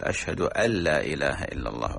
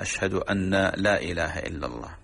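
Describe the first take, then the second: First: أن لا run together as "allaa"; merged nun. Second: أن said "anna" before لا, nun held; doubled nun. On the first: Sheikh giving the correct shahada, merged nun. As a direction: drop the n of أن into the l of لا. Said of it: "إدغام النون". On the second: Sheikh showing a muezzins' error in the shahada, doubled nun. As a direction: keep a full doubled n in أن, unmerged. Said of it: "تشديد إن في الشهادة". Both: Shown as a demonstration.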